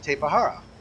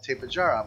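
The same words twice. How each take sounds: First: The j is pronounced like an h. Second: The j is pronounced like an English j. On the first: It is treated as a Spanish name. "if you pronounce it like Spanish, J's are H's" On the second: It is treated as a non-Spanish name. "What if the people who named it want it to be called"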